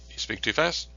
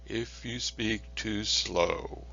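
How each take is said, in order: First: Fast. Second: Very slow, drawn-out words; slow talk demo. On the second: Lecturer showing students a too-slow pace, very slow. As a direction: stretch every word out slowly. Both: Shown as a demonstration.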